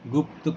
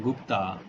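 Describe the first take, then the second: First: The word ends with a consonant. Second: The word ends with an added vowel. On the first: The speaker calls it right. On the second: The speaker calls it wrong.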